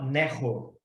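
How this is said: The middle consonant is a rolled R sound. This is how the southern half of the country says it. "Do meio para o sul do país, fala Nerro"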